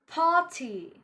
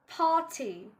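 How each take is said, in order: Both takes have the same delivery.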